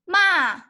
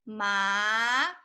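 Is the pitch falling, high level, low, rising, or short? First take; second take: falling; rising. First: The pitch falls sharply from high. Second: The pitch rises from mid to high. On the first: "the fourth tone is going down" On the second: "the second tone is ma"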